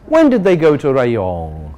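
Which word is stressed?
Rayong. The stress falls on the word Rayong. A simple question about when the trip happened. "the simple question"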